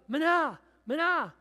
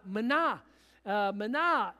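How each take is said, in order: First: High, loud yell of a stranger; loud clumsy imitation of the shepherd's call; tourist yelling. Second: Mild retold shepherd's call, a little louder; easy, familiar herding call. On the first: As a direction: shout the call too hard, like an outsider trying. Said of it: "started yelling". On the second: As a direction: call the sheep like a practised shepherd. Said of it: "the shepherd would yell out".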